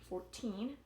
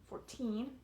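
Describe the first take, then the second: No difference in how they are said.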